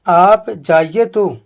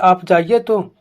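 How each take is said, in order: First: It is said in a challenging, threatening tone. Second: It is said in a plain, neutral tone. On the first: A warning not to go. "वह उसको मना कर रहा है" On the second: A simple request to go. "साधारण भाषा से उसमें बोला"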